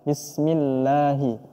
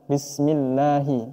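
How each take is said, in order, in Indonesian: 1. Huruf l di lafaz Allah itu tipis dan ringan. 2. Huruf l di lafaz Allah itu tipis dan ringan.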